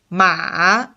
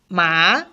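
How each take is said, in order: First: The pitch dips low and then turns up. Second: The pitch rises from middle to high. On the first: "there's an obvious turn in this sound... the V tone" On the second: "The second tone is called rising tone... from three rising up to five"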